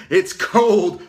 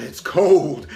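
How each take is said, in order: First: Higher, louder yelp of cold; cold shock, louder. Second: Cold shock. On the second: First cold exclamation. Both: Real, not acted.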